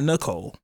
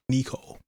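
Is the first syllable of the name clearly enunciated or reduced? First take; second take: reduced; enunciated. First: The first syllable is short and reduced. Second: The first syllable is clearly enunciated, like knee. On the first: This is the ordinary way the name is said. "Not Nicole" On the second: This is the grandfather's quirky way of saying it. "And he enunciates the knee"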